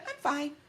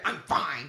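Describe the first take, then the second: First: It is said in a plain, neutral way. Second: It is said in a cold, dismissive way. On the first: It is just a simple reply. "she didn't say it like that. And she said" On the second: Leave me alone and don't talk to me. "But in my head, I hear, ... Leave me alone and don't ever talk to me"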